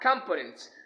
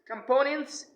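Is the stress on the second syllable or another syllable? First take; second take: another syllable; second syllable. First: The stress is not on the second syllable. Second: The stress is on the second syllable. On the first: The speaker calls it wrong. "not components" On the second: The speaker calls it right. "we have to stress the second syllables of these words"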